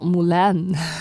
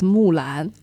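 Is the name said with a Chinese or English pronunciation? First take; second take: English; Chinese. First: The name is said with an English pronunciation. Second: The name is said with a Chinese pronunciation. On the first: The speaker calls it wrong. "It's not Mulan. It sounds the same, similar, but it's not the same" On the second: The speaker calls it right. "I suddenly realized it's Mulan. Hua Mulan"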